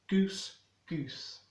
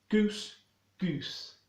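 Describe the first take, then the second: No difference in how they are said.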